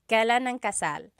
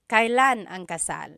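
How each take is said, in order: First: Kailan is said in its common everyday form. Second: Kailan is said in its fuller, more formal form. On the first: "you will often hear it pronounced kailan" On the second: "It's a little bit more formal"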